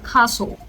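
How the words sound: It is said in a British accent. "castle is in British"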